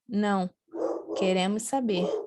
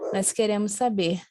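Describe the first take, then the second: First: There is a pause after the first word. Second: There is no pause after the first word. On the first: We do want to know. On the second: We do not want to know.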